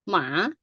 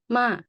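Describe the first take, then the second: First: The syllable is said with a rising tone. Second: The syllable is said with a falling tone. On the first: "rising right" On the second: "That is falling tone"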